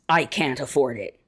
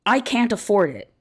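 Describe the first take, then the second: First: Lower, subdued quoted statement; lightly voiced welfare recipient. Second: Slightly raised, even quoted statement; lightly voiced academic woman. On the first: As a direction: lightly quote a woman with no choice, pitched down. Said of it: "when a woman on welfare says". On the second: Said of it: "When an academic woman says".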